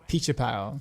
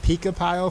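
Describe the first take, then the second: First: The name is said like 'Pichapao'. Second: The name is said like 'Pika Pile'. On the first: The speaker calls it right. "the bot actually pronounced someone's name right" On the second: The speaker calls it wrong. "I was pronouncing it wrong the entire time"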